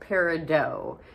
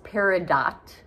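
First: The final T sound is silent. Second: The final T sound is pronounced. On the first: The speaker calls it right. "The T is silent" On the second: The speaker calls it wrong. "It is not pronounced peridot"

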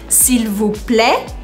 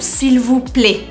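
First: The vowel in plaît is more open. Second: The vowel in plaît is more closed. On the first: "mais aberto" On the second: "um pouquinho mais fechado"

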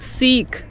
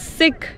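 First: It sounds like the word for a kebab skewer. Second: It does not sound like the kebab skewer word. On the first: The speaker calls it wrong. "it's not Sikh" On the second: The speaker calls it right. "it's Sikh"

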